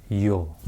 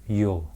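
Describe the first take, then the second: The two takes are said the same way.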